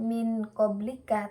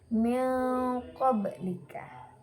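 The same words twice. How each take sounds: First: The n sound is pronounced fully and clearly. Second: The n sound is blurred into the next sound. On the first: The speaker calls it wrong. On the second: The speaker calls it right. "Jadi nun sukunnya disamarkan"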